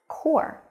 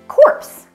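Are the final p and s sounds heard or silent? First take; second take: silent; heard. First: The word ends without any p or s sound. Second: The word ends with audible p and s sounds. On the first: The speaker calls it right. "there are some silent letters in this word" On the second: The speaker calls it wrong. "they would say this word is pronounced corpse"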